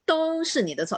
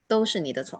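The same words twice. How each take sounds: First: It is said louder, longer and with force. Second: It is said flatly, without emotion. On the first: The speaker calls it right. "louder. You, you put it longer a bit" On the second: The speaker calls it wrong. "it doesn't make a no emotion at all"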